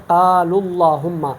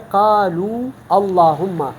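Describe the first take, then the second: First: "قال" linked by a short u straight into "اللہم"; joined reading. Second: "قالو" and "اللہم" as two separate words, slowly; unjoined original form. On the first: Teacher shows the linked form, "قال" flowing into "اللہم". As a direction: drop the long oo and run "قال" into "اللہم". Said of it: "ہم اس پیش کو پڑھ کے". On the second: Teacher shows the original form, "قالو" apart from "اللہم". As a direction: hold the long oo of "قالو", then start "اللہم" afresh. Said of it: "تو اصل میں یہ ہے". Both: Shown as a demonstration.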